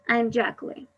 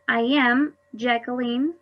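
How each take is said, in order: First: I am is contracted into one syllable. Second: I am is said as two full words.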